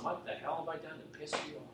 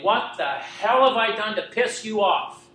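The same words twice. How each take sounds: First: Softer, faster, muttered under the breath; a hushed, spent echo; quiet anguished repeat. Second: Loud, slow, high anguished yell; a furious cry to God; screaming at the stars. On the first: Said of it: "I meant it". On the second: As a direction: hurl it at the sky, full voice. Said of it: "screaming the top of my lungs". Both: Retold or imitated.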